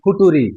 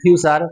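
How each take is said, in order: First: It is said as foo-too-ree. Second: It is said as fyoo-cher. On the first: The speaker calls it wrong. "তাকে বলতাম ফুটুরি" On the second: The speaker calls it right. "যেটা হবে উচ্চারণ ফিউচার"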